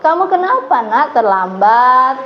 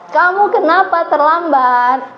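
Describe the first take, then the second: First: It is said softly, sounding disappointed and hurt. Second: It is said loudly and high, judging.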